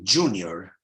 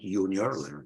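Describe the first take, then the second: First: It begins with an English j sound. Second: It is pronounced the Latin way. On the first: The speaker calls it right. "the J has a J sound, like you say junior" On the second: The speaker calls it wrong. "not junior, that's Latin"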